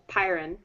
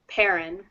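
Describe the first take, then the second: First: The first syllable sounds like 'pie'. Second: The first syllable sounds like 'pair'. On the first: The speaker calls it right. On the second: The speaker calls it wrong.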